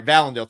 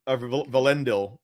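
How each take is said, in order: First: "Valendil" said VAL-en-dil, stress on first syllable; "Valendil" with a short first a, stress up front; mispronounced name. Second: "Valendil" said va-LEN-dil, stress on second syllable; "Valendil" with a weak first syllable and stressed "len"; corrected name. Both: Shown as a demonstration. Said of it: "enunciating those incorrectly".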